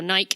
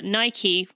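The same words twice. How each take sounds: First: It is said with the British pronunciation. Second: It is said with the American pronunciation.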